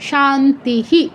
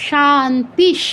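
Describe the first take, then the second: First: শান্তিহি ending in a full h with short i; visarga as hi. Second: শান্তিশ with long "aa", closed on sh; visarga as sh. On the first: Teacher showing the last word, শান্তিহি ending in "hi". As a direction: say শান্তিহি in separate syllables, echoing "hi". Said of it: "রস্বইকারটা উচ্চারণ করতে হবে". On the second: Teacher answering own question, শান্তিশ ending in sh. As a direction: end শান্তিশ in a vowelless palatal sh. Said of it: "তালব্য স হসন্ত উচ্চারণ". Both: Shown as a demonstration.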